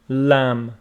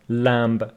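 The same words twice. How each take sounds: First: The final B sound is silent. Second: The final B sound is pronounced. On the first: The speaker calls it right. "the B is not pronounced" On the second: The speaker calls it wrong. "it's not lamb"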